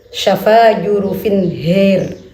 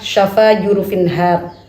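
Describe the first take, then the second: First: The last word has a vowel shifted toward e. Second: The last word has an open a vowel.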